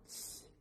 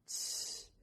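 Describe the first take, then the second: First: CH as a short hushing "sh"; short "shh" for CH; demonstrated letter sound. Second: CH as a longer hushing "shhh"; long voiceless "shhh" for CH; demonstrated letter sound. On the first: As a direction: say CH as a brief wordless shush. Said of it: "que es casi igual, pero es". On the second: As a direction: hold CH as a drawn-out shush. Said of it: "casi es lo mismo". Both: Shown as a demonstration.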